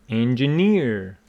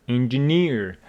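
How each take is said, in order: No difference in how they are said.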